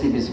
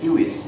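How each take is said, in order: First: It begins with an S sound and has V. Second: It begins with a K sound and has W. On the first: This is how it is said in English. "আমরা ইংরেজিতে উচ্চারণ না করে সিভিস বলি" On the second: This is how it was said in Latin. "এটা ল্যাটিন উচ্চারণ কিউইস"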